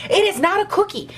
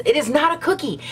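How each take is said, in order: First: Hammed-up indignation, pitched higher; mock-furious, higher repeat of the line; mock outrage. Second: Mock outrage. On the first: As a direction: push "it is not a cookie" up high in fake fury. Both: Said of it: "that was really dramatic".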